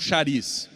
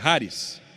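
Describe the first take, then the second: First: The word is said as Portuguese spelling suggests. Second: The word is not said as Portuguese spelling suggests.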